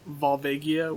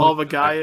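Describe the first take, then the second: First: It is blended into one smoothly joined word. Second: It sounds like two separate words, Volva and Gaia. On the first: "if you put them together" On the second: "if you take the two words separate"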